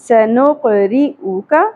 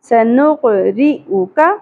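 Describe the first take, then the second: The two takes are said the same way.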